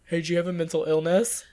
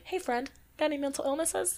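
First: Mock blunt interrogation; imitating a tactless ghost hunter; blunt version. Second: Soft, high, sugary question; mock-gentle, pitched-up friendly query; saying it nicely. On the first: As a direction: ask it with no sweetness at all. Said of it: "But I'm not like". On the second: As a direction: ask it sweetly and lightly. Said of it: "but I say it nicely".

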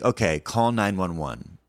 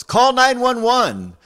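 First: Said in the usual way. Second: Slow, high, loud desperate yell; imitating a frightened woman yelling for help. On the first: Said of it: "And I think". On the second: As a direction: cry out each number slowly. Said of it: "she yells".

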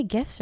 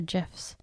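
First: Gifs said with a hard G, as in gift. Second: Gifs said with a soft G, like jifs. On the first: Asking co-hosts which way they say it, gifs with hard G. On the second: Asking co-hosts which way they say it, gifs with soft G. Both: Shown as a demonstration. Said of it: "do you say gifs or gifs".

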